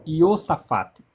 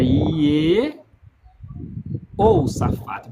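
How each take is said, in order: First: "Iosafate" said slowly, the "eho" dropped; shortened form. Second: "Iehosafate" stretched very slowly, every syllable "I-e-ho" sounded; full form. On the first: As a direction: demo the contracted "Iosafate". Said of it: "em vez de pronunciar Iehosafate, se pronuncia como". ("Iosafate" dito devagar, sem o "eho") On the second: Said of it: "Mas é Iehosafate". ("Iehosafate" bem lento, com todas as sílabas) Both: Shown as a demonstration.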